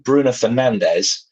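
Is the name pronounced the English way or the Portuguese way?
English. The name is said with English pronunciation. "you change from"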